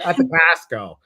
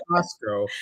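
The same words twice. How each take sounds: First: Put-on a light Chicago accent, saying "At the Costco" with "the" put before the store name; a Chicagoan casually adding "the" in "At the Costco". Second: Said in the usual way. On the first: Host mocks her own Chicago habit with a light Chicago accent. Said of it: "that Chicago accent comes out". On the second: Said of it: "Not Costco".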